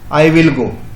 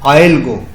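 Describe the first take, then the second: First: Will is pronounced in full as a separate word. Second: Will is reduced and joined to I. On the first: "ये जो है ये क्या पढ़ेंगे?" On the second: "इसको silent में पढ़ते हैं आइल"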